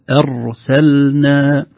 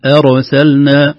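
First: Slow أرسلنا, thin hamza and firm closed ر; clear hamza and ra. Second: أرسلنا with a stray vowel after ر, "erosalna"; bouncing ra. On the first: Teacher models careful reading, clear ra. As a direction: hold the ر of أرسلنا clearly without a bounce. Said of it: "ينبغي علينا نهتم بالهمزة". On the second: Teacher imitates careless reader, bounced ra. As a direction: loosen the tongue and bounce the ر of أرسلنا. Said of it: "تقلقل". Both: Shown as a demonstration.

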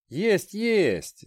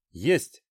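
First: Higher, brisk and matter-of-fact; businesslike. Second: Said in the usual way. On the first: Acted. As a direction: brush it off briskly. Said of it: "деловито подпихивал его Сим".

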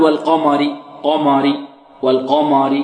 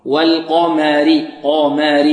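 First: "والقمر" with the mim thickened like the qaf; wrong heavy mim. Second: "والقمر" with heavy qaf and thin, fronted "ma"; correct light mim. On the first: Teacher shows what not to say, heavy mim in "والقمر". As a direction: carry the dark qaf vowel into "ma" of "والقمر". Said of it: "لا نقول". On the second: Teacher models it for students, light mim in "والقمر". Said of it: "والميم مرققة". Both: Shown as a demonstration.

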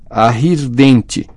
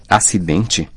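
First: "Arridente" very slow and effortful, consonants mangled; bloodied-mouth speech. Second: Said in the usual way. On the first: A narrator's reading. Ron struggles to be understood, garbled slow "Arridente". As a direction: force out "Arridente" syllable by syllable. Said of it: "sua boca estava ensanguentada".

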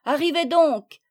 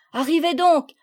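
First: Second call, falling at the end. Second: Called out loud to the others; calling out. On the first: Children calling their friends a second time, loud. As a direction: call again, landing firmly on donc. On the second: Children calling to their friends, loud. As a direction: shout the welcome across the room. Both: A narrator's reading. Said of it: "leur crièrent-ils".

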